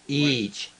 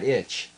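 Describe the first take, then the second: First: The vowel is a long 'ee' sound. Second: The vowel is a short 'i' sound. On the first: The speaker calls it right. "Each, each" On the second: The speaker calls it wrong. "not itch"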